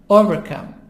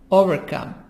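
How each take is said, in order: The two takes are said the same way.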